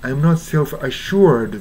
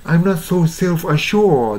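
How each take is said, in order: First: "assured" as "a-shoo-erd"; slow phrase with rhotic "assured"; American-style assured. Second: "assured" as "a-shawd", higher pitch; non-rhotic "assured"; British-style assured. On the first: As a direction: keep the oo and r in "assured". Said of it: "じゃなくてね". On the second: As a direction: draw "assured" out with an aw, no r. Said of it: "assuredと発音してるんですね". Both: Shown as a demonstration.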